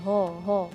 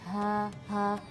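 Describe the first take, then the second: First: The H sound is thickened and darkened. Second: The H sound is thin with a flat tongue. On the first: The speaker calls it wrong. "kita menebalkan suara huruf H jadi ho ho" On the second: The speaker calls it right. "jadi lidah kita datar saja"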